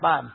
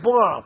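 First: The syllable is pronounced ban. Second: The syllable is pronounced bo. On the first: The speaker calls it wrong. "不念班" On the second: The speaker calls it right. "这念波"

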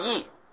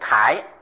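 First: The syllable is read as yi. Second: The syllable is read as kai. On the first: "第一个音是义字，念作义" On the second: "第二个音呢、念作楷字……念凯"

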